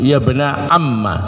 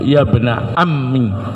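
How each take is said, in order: First: The last word ends with an 'a' vowel. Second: The last word ends with an 'i' vowel. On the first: "ya-nya dibuang, mimnya di fathah" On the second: "ya-nya dibuang, mimnya dikasrah"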